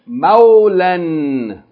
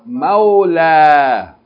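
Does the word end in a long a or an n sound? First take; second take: n sound; long a. First: The word ends with an n sound. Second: The word ends with a long a vowel. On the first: Reading continues after the word. "Continue reading" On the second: Reading stops at the word. "Stop or pause"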